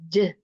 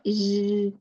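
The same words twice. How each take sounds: First: The j sound is strong and firm. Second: The j sound is soft, like sh. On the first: The speaker calls it right. "It has strong quality in it" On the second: The speaker calls it wrong. "It's not j"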